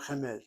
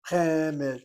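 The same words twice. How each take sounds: First: Chemed wrongly accented on the last syllable, che-MED; short first syllable in chemed, weight moved to -med; mis-stressed chemed, softer, as a counterexample. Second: Chemed with the first syllable hit hard and loud; loud, drawn-out first syllable in Chemed; accent on first syllable. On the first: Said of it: "not chemed". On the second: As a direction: punch the CHE of Chemed, leave -med light. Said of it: "receives the accent". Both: Shown as a demonstration.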